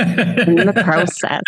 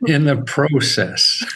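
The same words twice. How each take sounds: First: Slow Canadian "process" with a long pro vowel; Canadian accent. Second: Put-on Canadian accent. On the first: Shown as a demonstration. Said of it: "Certain words, it comes out". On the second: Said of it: "now I hear your Canadian accent".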